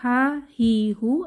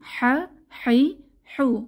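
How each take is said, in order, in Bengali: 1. h একটি হালকা, সাধারণ শ্বাস। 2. h কণ্ঠনালী থেকে শক্ত করে চেপে বের করা হয়। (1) "গোল হায়ের মতো" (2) "একটু বাতাস চেপে বলতে হবে"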